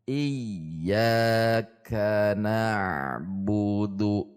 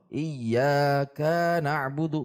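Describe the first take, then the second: First: The syllable 'ka' is short, even and unpressed. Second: The syllable 'ka' is pressed, rising and lengthened. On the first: The speaker calls it right. "Satu harokat semua meskipun pelan" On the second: The speaker calls it wrong. "jika menekan, ka-nya menjadi panjang"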